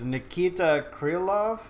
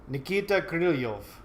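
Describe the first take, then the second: First: The name is said in a plain accent. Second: The name is said in a Russian accent.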